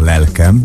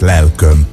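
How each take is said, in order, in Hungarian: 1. Mindkét szótagban ajakkerekítés nélküli e van. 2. Az első szótagban e van, a másodikban ö. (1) "Az a lelkem" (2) "lelköm úgy szólt volna jó"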